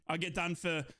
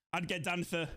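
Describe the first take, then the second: No difference in how they are said.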